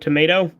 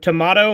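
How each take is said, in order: First: Tomato is said with an American pronunciation. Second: Tomato is said with a British pronunciation.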